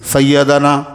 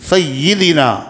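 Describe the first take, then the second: First: The vowel after the doubled y is 'a'. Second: The vowel after the doubled y is 'i'. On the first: The speaker calls it wrong. "सैयदना नहीं" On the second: The speaker calls it right. "सही है, सैयदीना"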